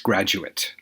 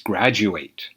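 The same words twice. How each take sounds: First: The final syllable sounds like it. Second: The final syllable sounds like eight. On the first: It is used as a noun or adjective. "when it's being used as a noun or as an adjective" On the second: It is used as a verb. "When this word is a verb"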